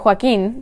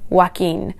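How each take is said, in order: First: Joaquin with an h sound leading into the w; Spanish pronunciation. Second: Joaquin as wah-KEEN, starting on a plain w; English pronunciation. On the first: Teacher shows learners the Spanish name, h-sound at the start of Joaquin. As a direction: say Joaquin the Spanish way, hwah-KEEN. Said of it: "So in Spanish, it should be". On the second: Teacher shows how English speakers say it, Joaquin as wah-KEEN. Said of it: "speakers of English generally tend to pronounce it as". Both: Shown as a demonstration.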